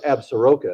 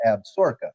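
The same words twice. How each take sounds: First: "Absaroka" sounded out as ab-sa-RO-ka; spelling pronunciation of "Absaroka", every vowel voiced; pronounced as spelled. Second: "Absaroka" said as ab-SOR-ka; actual local pronunciation. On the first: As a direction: say "Absaroka" in four syllables, as written. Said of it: "I know it's spelled". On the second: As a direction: say "Absaroka" in three syllables, middle squeezed. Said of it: "it's actually pronounced". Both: Shown as a demonstration.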